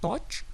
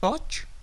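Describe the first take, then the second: Both takes have the same delivery.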